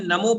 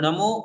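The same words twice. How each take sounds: First: The first consonant is a dental n. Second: The first consonant is a retroflex n. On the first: It turns the word into Sanskrit. The speaker calls it wrong. "नल वाला न" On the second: It keeps the whole mantra in Prakrit. The speaker calls it right. "इसमें न बाण वाला है"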